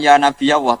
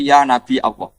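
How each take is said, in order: First: The word Nabi is said without a glottal stop. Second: The word Nabi is said with a glottal stop. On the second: "kiroah bil hamzi itu sah"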